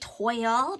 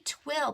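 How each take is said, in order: First: The vowel sounds like the one in 'boil'. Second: The vowel sounds like the one in 'will'. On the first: "we say toil" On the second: "I don't think it's twill"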